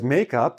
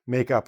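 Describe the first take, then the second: First: The stress falls on the first part, make. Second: The stress falls on the second part, up. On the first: It names the stuff you put on your face. "I'm putting the stress more on the first syllable" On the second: It is a verb meaning to invent or reconcile. "you're going to stress the preposition"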